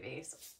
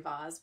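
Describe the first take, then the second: First: The word is said the everyday way. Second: The word is said the more formal way. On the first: This is how the speaker normally says it. "I say vase" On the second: This is the proper way many people use. "I'm not that proper to say vase"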